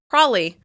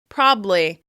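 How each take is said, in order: First: The B sound is gone entirely. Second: The middle syllable is dropped, leaving two. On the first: "people drop the B sound entirely and just say the L" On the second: "They'll drop that middle syllable"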